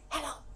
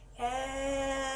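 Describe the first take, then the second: First: It is said very fast. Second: It is said very slowly.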